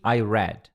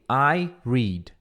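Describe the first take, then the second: First: "read" with a short e, like "red"; past-tense pronunciation. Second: "read" with a long ee, like "reed"; present-tense pronunciation. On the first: English teacher drilling eu li from memory, "read" as "red". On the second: English teacher drilling eu leio from memory, "read" with long ee. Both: Shown as a demonstration. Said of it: "se pronuncia diferente".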